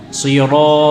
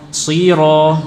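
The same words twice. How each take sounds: The two takes are said the same way.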